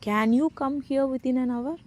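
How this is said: The stress falls on the word can. The question is whether the person is able to come. "முடியுமாங்கிறத நம்ம stress பண்ணி கேட்குறோம்"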